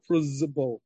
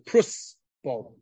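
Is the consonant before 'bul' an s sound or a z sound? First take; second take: z; s. First: The consonant before 'bul' is a z sound. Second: The consonant before 'bul' is an s sound. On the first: The speaker calls it wrong. "it's not a Prusbul. ... Everyone pronounces it wrong. It's not a Zayin" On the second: The speaker calls it right. "It's really a Samach"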